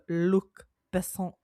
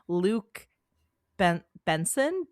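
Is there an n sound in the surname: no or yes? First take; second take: no; yes. First: The surname has no n sound, French style. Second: The surname has an n sound, English style. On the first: The speaker calls it right. "it's like French. So" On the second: The speaker calls it wrong. "I apologize if I'm mispronouncing his name"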